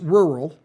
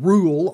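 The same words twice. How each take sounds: First: The word begins with a full 'rur' sound. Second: The word begins with a sound like 'rule'. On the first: The speaker calls it right. "it's rural" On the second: The speaker calls it wrong. "It's not rural, R-U-L-E"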